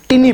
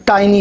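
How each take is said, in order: First: टिनी said with short i, TIN-ee; टिनी as the wrong short-i reading; wrong tiny. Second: टाइनी said with long ai, TY-nee; टाइनी with the ai sound; correct tiny. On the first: Teacher showing students' wrong टिनी. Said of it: "ना कि टिनी". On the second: Teacher giving the right टाइनी to students. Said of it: "ये लफ्ज़ टाइनी है". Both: Shown as a demonstration.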